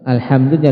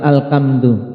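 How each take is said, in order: First: The middle consonant is a breathy h sound. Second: The middle consonant is a k sound. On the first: The speaker calls it right. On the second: The speaker calls it wrong.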